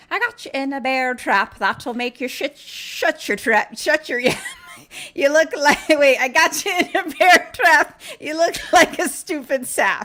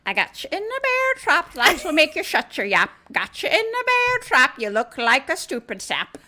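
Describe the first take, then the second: First: High, loud sing-song leprechaun rhyme; laughing leprechaun taunt. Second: High, loud sing-song leprechaun rhyme; leprechaun taunt. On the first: Leprechaun mocking trapped Nathan, high and loud. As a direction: taunt him like a gleeful little imp. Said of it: "he's, like, laughing and he's like". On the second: Leprechaun repeats his bear trap taunt, high and loud. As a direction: sneer the rhyme like a gleeful imp. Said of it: "That's what he does". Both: Retold or imitated.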